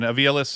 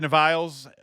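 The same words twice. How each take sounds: First: Aviles said as ah-VEE-uh-less, four syllables; corrected name. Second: Aviles said as ah-VILES, two syllables; first try at the name. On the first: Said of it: "once again, Aviles". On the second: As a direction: Aviles with a long I, rhyming with miles. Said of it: "I always forget how to pronounce his name". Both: Real, not acted.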